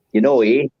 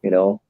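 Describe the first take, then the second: First: Canadian-sounding Wisconsin "you know, eh"; mock Wisconsin accent. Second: Said in the usual way. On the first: Shown as a demonstration. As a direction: lightly put on a Wisconsin accent. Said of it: "very distinctive accent".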